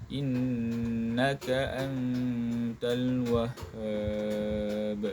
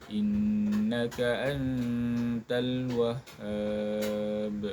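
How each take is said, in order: No difference in how they are said.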